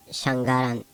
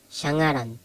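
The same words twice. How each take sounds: First: Shangaran as shang-garan, G sounded; wrong hard G. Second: Shangaran with NG and no hard G; NG as one letter. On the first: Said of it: "Not shangaran". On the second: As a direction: merge NG into one sound in shangaran. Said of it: "it's pronounced as one letter". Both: Shown as a demonstration.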